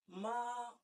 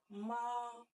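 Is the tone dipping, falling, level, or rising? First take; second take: level; level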